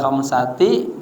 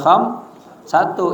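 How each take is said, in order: First: The word ends in an 'i' vowel. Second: The word ends in a 'u' vowel. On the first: "kagak boleh khamsati" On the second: "kagak boleh kham satu"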